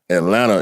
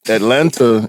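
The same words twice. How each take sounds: First: The T sounds are dropped from the word. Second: Both T sounds are clearly pronounced. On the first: This is how the locals say it. "Atlanta is where you live" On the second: This is the written, official form. "Atlanta is what it says on the map"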